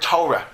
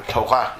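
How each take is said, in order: First: Torah stressed on the first syllable, TOR-ah; wrong stress. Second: Torah stressed on the last syllable, to-RAH; correct stress. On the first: Rabbi showing the common wrong way to say Torah, first-syllable stress. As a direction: say Torah with the weight up front, TOR-ah. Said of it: "or Torah is the way it should be pronounced". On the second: Rabbi showing the correct Hebrew Torah, stress on the end. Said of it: "is the way it should be pronounced". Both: Shown as a demonstration.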